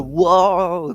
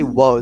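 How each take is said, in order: First: The word is said in a wobbling voice. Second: The word is said in a steady voice. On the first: The speaker calls it right. "They say whoa. They they like wobble their voice" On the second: The speaker calls it wrong. "They don't say whoa"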